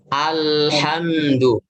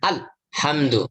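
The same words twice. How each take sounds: First: The consonant sound flows on without stopping. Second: The consonant sound stops abruptly, cut off. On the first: The speaker calls it right. "Tapi apa?" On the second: The speaker calls it wrong. "Lihat terputus bagaimana?"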